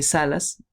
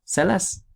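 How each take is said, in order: First: "salas" stressed on SA; stress on first syllable. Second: "salaz" stressed on the final LAZ; stress on last syllable. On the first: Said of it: "diferentes acentos". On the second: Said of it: "los acentos son diferentes". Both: Shown as a demonstration.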